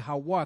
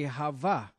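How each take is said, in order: First: The middle consonant is a W sound. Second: The middle consonant is a V sound. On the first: The speaker calls it right. "which is really Hawa" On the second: The speaker calls it wrong. "they say Hava"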